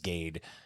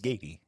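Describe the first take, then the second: First: The name ends with a plain 'd' sound. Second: The name ends with a 'dee' sound. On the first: The speaker calls it wrong. "because I forgot how to pronounce my last name" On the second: The speaker calls it right. "the correct pronunciation is Gady"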